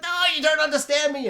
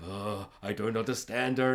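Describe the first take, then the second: First: Put-on much higher, fast whiny girl's protest; upset daughter. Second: Lower, much softer grumble; baffled dad. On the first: Daughter protesting to her dad, high and fast. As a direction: whine it like a misunderstood teen. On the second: Retold or imitated. Dad complaining about his daughter, low and soft. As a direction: mutter it like a bewildered father. Dad's puzzled reply.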